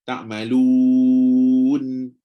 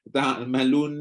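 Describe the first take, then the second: First: The long u is held fully before the n. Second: The n comes in before the long u finishes. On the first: The speaker calls it right. "habiskan waw dulu" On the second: The speaker calls it wrong. "Dia pergi nun dulu"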